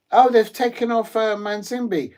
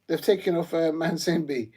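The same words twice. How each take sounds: First: Shocked at the substitution news; sudden surprised outburst. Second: Said in the usual way. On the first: Real, not acted. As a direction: caught off guard, higher and louder.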